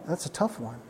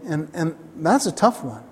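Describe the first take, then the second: First: Much softer, almost to himself; quiet repeat. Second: Said in the usual way. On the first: Real, not acted. Preacher repeats the hard truth softly to himself, quiet. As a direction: let it drop away, half under the breath.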